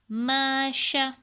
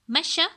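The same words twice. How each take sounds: First: The vowels are drawn out and dragged. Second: The vowels are short and quick. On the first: The speaker calls it wrong. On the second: The speaker calls it right.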